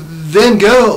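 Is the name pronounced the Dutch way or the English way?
English. The name has an English pronunciation.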